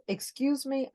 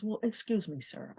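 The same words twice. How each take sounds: First: "Excuse me" pitched high, clipped and indignant; raised, offended "Excuse me". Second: "Well, excuse me, sir" said low and much softer; dropped, softened "Well, excuse me, sir"; lowered voice. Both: Retold or imitated. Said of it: "let me lower my voice".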